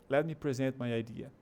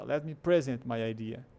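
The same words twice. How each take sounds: First: "present" as pre-ZENT, second syllable stressed; verb stress. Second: "present" wrongly as PREZ-ent, first syllable stressed. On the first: Teacher gives the verb example, "present" stressed at the end. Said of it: "É o verbo também". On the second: Teacher shows the nonsensical version, "present" wrongly stressed up front. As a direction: misplace the stress onto the start of "present". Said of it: "imagina que você falaria". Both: Shown as a demonstration.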